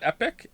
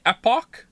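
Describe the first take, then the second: First: The word ends with a 'pick' sound. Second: The word ends with a 'pock' sound. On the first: "not epic?" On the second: "you mean epoch"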